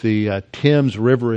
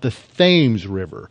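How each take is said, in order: First: The name has its original English pronunciation. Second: The name has an Americanized pronunciation. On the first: The speaker calls it right. "They were familiar with the Thames River in London" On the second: The speaker calls it wrong. "they've just completely corrupted the pronunciation. They call it"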